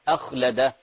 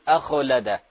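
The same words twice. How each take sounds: First: The kh sound is soft and breathy, not bounced. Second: The kh sound is given a bouncing echo release. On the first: The speaker calls it right. "الخاء فيها همس وليس فيها قلقلة" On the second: The speaker calls it wrong. "لا تقول أخلده"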